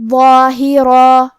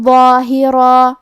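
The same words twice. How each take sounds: First: ظاہرا ending on a long alif, slow and louder; stop on alif. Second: Heavy emphatic ظ in ظاہرا, recited slowly; tajweed demo. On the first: Teacher demonstrating the pause form to students. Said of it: "تنوین زبر پہ مد الف سے رکیں گے". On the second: Teacher demonstrating the heavy letter to students. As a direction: give ظاہرا a full, thick ظ. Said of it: "یہ غنہ کو بھاری آواز میں ادا کرنا ہے". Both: Shown as a demonstration.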